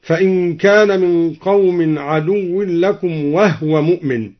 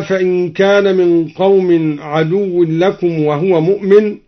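First: وهو read wahwa with the هـ left vowelless; وهو said as wahwa not wahuwa; silent h in وهو. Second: Said in the usual way. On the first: Shown as a demonstration. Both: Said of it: "أسكن الهاء هكذا".

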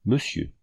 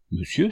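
First: Said in the usual way. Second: Monsieur asked with a sharp rising astonished tune; utter surprise. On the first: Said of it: "au comble de la surprise". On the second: A narrator's reading. Renée hearing the letter's address, astonished. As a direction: echo Monsieur back, stunned and questioning. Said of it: "s'écria la jeune fille au comble de la surprise".

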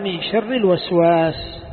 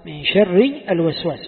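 First: Reads "من شر الوسواس" slowly and carefully; slow quoted reading. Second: Said in the usual way. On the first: Shown as a demonstration. Teacher reading the verse to students, slow and deliberate. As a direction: lays out "من شر الوسواس" word by word, slowly. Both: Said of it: "قال".

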